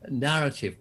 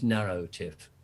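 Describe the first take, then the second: First: The first syllable is a short plain 'narr'. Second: The first syllable is stretched to sound like 'narrow'.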